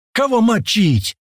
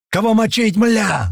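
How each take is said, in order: First: Slow, high-pitched booming question. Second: High-pitched eager yell. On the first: Ivan with a machine gun, booming. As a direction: draw it out as a big booming call. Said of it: "пробасил Иван с пулемётом". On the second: Tomas among the newly arrived fighters, yelling. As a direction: bellow the question, pitch up high. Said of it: "заорал Томас". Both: A narrator's reading.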